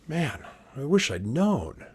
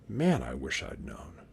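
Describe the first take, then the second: First: Rueful Custer. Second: Said in the usual way. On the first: Shown as a demonstration. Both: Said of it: "You think Custer would have said that?".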